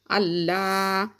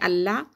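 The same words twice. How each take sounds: First: The l sound is heavy and emphatic. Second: The l sound is light, without emphasis. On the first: "on doit mettre l'emphase sur le lam en disant Allah" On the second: "à part quand il est précédé par une kasra, où on dit Allah"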